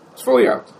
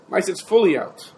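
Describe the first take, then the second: First: Teacher repeating it for emphasis; emphatic repeat. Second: Said in the usual way. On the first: Shown as a demonstration. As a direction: FULLY hit higher and louder.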